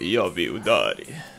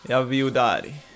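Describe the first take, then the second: First: It is said in a put-on character voice. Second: It is said in his ordinary speaking voice.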